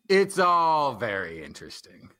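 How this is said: It is said in a snarky, sarcastic tone.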